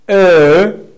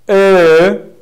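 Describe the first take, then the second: No difference in how they are said.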